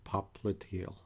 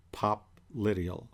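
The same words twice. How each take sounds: First: Popliteal slowly as pop-luh-TEEL; slow popliteal, stressing a long-ee TEE; second pronunciation variant. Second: Popliteal spaced out as pop, LIT-ee-ul; slow popliteal, stressing the short-i LIT; first pronunciation variant. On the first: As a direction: say popliteal slowly with the weight on its ending. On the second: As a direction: say popliteal slowly with the weight on LIT. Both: Shown as a demonstration. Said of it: "however you'd like to pronounce that".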